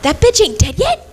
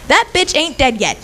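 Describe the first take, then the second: First: It is said as a rising question. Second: It is said as a falling statement.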